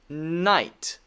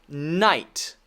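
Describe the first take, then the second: No difference in how they are said.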